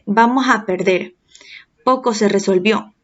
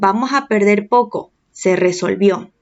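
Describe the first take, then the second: First: The pause comes before poco. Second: The pause comes after poco.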